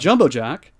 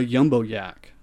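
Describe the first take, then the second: First: Both words begin with a J sound. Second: Both words begin with a Y sound. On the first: The speaker calls it right. "there's two J's there" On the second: The speaker calls it wrong. "would call it a yumbo yak"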